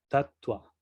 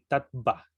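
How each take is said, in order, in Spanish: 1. La consonante después de la t suena como u. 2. La consonante después de la t es una v clara. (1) "la B se pronuncia con un ligero tono de U" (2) "si lo pronunciaríamos así como se lee en, en español, pronunciaríamos así tatva, pero no se pronuncia así"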